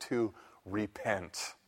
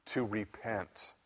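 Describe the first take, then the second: First: Slow, soft and grave; solemn quiet. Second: Slow, soft repeat; solemn quiet echo. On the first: Preacher quoting Paul, quietly and gravely. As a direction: lay the word down quietly and slowly. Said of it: "He says". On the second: Preacher repeating Paul's word to the congregation, hushed. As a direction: let it sink in softly and slowly. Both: Acted.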